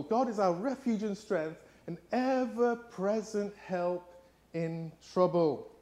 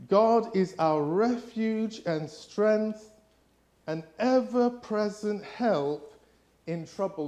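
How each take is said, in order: First: Slow, softer, thoughtful repeat; slow thoughtful rereading; quieter repeat of the verse. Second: Slow, louder, higher solemn reading; slow solemn scripture reading. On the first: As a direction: let the verse sink in slowly. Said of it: "repeats the verse". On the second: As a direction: read it out slowly like scripture. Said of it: "it says this". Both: Acted.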